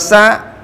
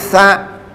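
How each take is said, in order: First: It begins with a plain s sound. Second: It begins with a th sound, tongue on teeth. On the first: The speaker calls it wrong. "bukan sa" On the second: The speaker calls it right. "tapi sa. Membacanya sa, lidah kita disentuhkan gigi di depan"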